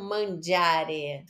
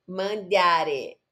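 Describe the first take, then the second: First: Mangiare with a dj sound on gia; soft g in mangiare. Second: Mandiare with a plain d before i, not a j sound; d as in dente, not dj. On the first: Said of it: "não mangiare". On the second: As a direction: say mandiare with a clean d. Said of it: "Mas a pronúncia é". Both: Shown as a demonstration.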